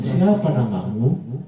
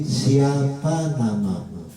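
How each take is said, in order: First: "Siapa namamu" swooping up at the end of "namamu"; wrong rising question tune. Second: Careful model question with a long descending close on "namamu"; correct falling question tune. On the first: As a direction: ask "Siapa namamu" with the last syllable lifted. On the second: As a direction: draw out "Siapa namamu" and let the end fall. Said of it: "Itu yang benar". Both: Shown as a demonstration.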